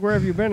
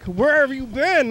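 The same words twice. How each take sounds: First: The question sounds light and friendly. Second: The question sounds accusing and scolding. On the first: The speaker is simply curious and glad to see him. The speaker calls it right. "whenever you show up and it's like" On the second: The speaker is reproaching him for being missing. The speaker calls it wrong. "It's not like, ... Not like that"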